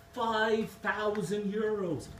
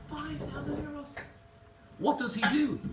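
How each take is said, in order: First: High, slow, stretched-out price; drawn-out reveal. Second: Very high squeal of mock outrage; incredulous customer. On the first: Acted. Barman revealing the third parrot's price, drawn out. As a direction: savour every word of the big number. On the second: Irish customer demanding what the dearest parrot does, incredulous. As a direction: yelp it in sheer disbelief. Customer shocked at biggest price.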